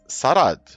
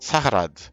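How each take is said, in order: First: The name is said without any H sound. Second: The name is said with a clear H sound. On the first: This is how the people of Zandir Sol say it. "with a hard consonant H omitted" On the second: This is the literal, as-written way of saying it. "so it would be pronounced Sahrad, spoken by them literally"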